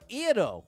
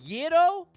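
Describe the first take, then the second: First: The word begins directly with a vowel. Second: The word begins with a Y sound.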